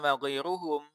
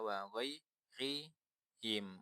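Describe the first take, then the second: First: The vowel after ghair is u. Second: The vowel after ghair is i. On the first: The speaker calls it wrong. "ya juga salah" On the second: The speaker calls it right. "satu-satunya yang memungkinkan dibaca"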